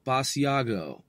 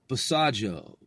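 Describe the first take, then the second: First: Basiago as bah-see-AH-go, falling at the end; hard-g pronunciation. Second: Basajo as buh-SAH-joe, falling at the end; soft-g pronunciation. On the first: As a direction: say Basiago in four syllables with a hard g. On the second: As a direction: say Basajo in three syllables with a j sound. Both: Shown as a demonstration. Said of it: "However that is pronounced".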